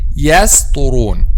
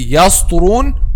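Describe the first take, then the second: First: The s sound is light and thin. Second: The s sound is heavy and thick. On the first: The speaker calls it right. "but say" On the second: The speaker calls it wrong. "don't say"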